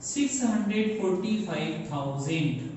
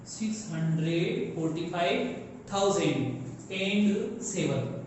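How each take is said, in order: First: Said in the usual way. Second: "six hundred forty five thousand and seven" read slowly, word by word; slow read-through. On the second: Shown as a demonstration. Teacher reading a number slowly to students. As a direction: spell the number out slowly for the class. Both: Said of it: "इन दोनों को एक साथ बोला जाएगा".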